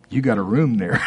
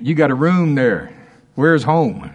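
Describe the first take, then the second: First: Joyful laugh through the words. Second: Louder and higher, bursting out; excited. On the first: Preacher to congregation, laughing with delight. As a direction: chuckle it out, delighted. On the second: Preacher rejoicing to congregation, exclaiming louder. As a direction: let the joy break loose. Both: Real, not acted. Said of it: "I'm excited about that".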